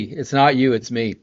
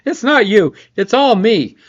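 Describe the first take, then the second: First: Said in the usual way. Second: High, loud hammed-up apology; mock dramatic breakup. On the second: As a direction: overplay it like a soap breakup. Repeats the joke, higher and louder.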